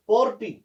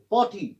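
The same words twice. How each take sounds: First: पॉर्टी with an audible R before T; wrongly sounded R. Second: पॉटी with no R before T; silent R. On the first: Teacher shows a wrong reading, R sounded in पॉर्टी. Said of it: "that is wrong". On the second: Teacher models the correction, R silent in पॉटी. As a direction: say पॉटी, dropping the R. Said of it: "अगर हम और की आवाज निकले". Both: Shown as a demonstration.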